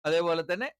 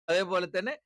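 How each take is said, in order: Both takes have the same delivery.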